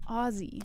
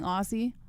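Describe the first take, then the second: First: The middle consonant is a Z sound. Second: The middle consonant is an S sound. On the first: The speaker calls it right. "Say it as if it has Z's in it" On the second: The speaker calls it wrong. "I've been sounding like a fucking idiot saying Aussie"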